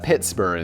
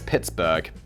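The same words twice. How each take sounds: First: It is said the British way. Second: It is said the American way. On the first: "we'd pronounce that Pittsburgh in the U K" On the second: "I'm fairly sure it's Pittsburgh, which sounds worse"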